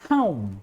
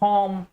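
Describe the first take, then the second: First: The vowel glides from uh toward oo. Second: The vowel is a single steady o sound. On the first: The speaker calls it right. "इट्स होम" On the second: The speaker calls it wrong. "We don't use ओ in English like होम, it's wrong"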